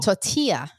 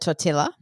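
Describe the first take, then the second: First: The word is said the American way. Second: The word is said the Australian way.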